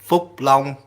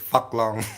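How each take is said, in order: First: The name is said with Vietnamese pronunciation. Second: The name is said with English pronunciation. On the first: "In Vietnamese, it's Phúc Long" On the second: "English pronun- pronunciation is Fuck Long"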